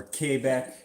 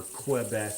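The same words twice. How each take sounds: First: "Quebec" as "kay-BECK"; French-style pronunciation. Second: "Quebec" as "kwuh-BECK"; kw pronunciation. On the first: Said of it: "or Quebec". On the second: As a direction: say "Quebec" with a kw at the start. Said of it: "Quebec accent, or Quebec". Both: Shown as a demonstration.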